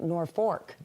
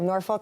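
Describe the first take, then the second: First: The L is sounded like an R. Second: The L is not sounded like an R. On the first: This is how the Nebraska town's name is said. "The L is like an R" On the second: This is how the local town's name is said. "we have Norfolk here"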